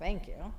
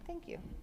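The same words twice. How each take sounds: First: It is said in a rude, disrespectful tone. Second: It is said in a polite, respectful tone. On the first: The speaker calls it wrong. "A school-age kid disrespectfully says" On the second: The speaker calls it right. "Respectfully say"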